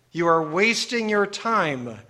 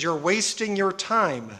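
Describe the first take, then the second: First: "You are wasting your time" slowed down, each word given weight; slow, insistent "You are wasting your time"; emphatic repetition. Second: Said in the usual way. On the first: Real, not acted. Preacher repeats warning for emphasis.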